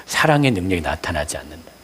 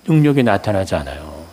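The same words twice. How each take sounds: First: 사랑의 lifted with a rise, the rest dropping soft; stress on 사랑의. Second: Said in the usual way. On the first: Shown as a demonstration. Preacher answering his own question, stressing 사랑의. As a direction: lean on 사랑의 to answer which power. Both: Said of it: "어떤 능력?".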